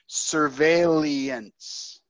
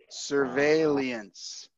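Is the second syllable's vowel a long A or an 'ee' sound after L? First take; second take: ee after L; ee after L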